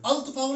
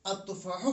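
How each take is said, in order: First: "अल तुफाहु" with the L pronounced, pitched higher; raised-pitch demo of unmerged "अल तुफाहु"; wrong reading, L sounded. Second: "अत्तुफाहु" with no L and a doubled T; correct assimilated reading. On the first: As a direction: say a clear L before T in "अल तुफाहु". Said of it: "अल तुफाहु नहीं पढ़ना है". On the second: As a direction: drop the L, hold the T in "अत्तुफाहु". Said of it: "अत्तुफाहु पढ़ना है". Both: Shown as a demonstration.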